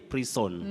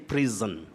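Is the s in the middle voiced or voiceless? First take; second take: voiceless; voiced. First: The middle s is a hissing s sound. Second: The middle s is a buzzing z sound. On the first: The speaker calls it wrong. "we don't say" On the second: The speaker calls it right. "S takes the voiced sound z"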